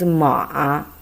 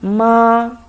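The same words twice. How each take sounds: First: It is said with the third tone. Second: It is said with the first tone. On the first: It means horse. "The third time is ma" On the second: It means mom. "for the first time"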